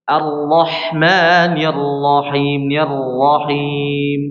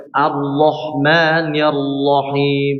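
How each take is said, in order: First: Slow chant with open lips on the r; chanted, intone Ar-Rahmanir Rahim slowly with the lips apart; chanted, recite Ar-Rahmanir Rahim slowly and openly, lips relaxed; correct chanted recitation. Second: Slow Ar-Rahmanir with rounded, closed lips on the r; Ar-Rahmanir Rahim said slowly through pursed lips; wrong recitation. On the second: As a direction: press the lips together while saying Ar-Rahmanir. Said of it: "Salah, ya". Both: Shown as a demonstration.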